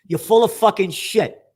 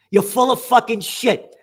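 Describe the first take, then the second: First: Angry. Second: Slow, furious repeat; furious rebuke of the journalist, drawn out; angry, slower and harder. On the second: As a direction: hammer each word the second time. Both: Real, not acted. Berating the journalist.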